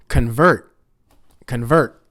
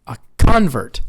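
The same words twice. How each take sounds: First: Convert as con-VERT, loud; second-syllable stress. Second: Convert as CON-vert, CON loud; first-syllable stress. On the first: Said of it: "so that's the action". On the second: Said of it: "That's the noun". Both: Shown as a demonstration.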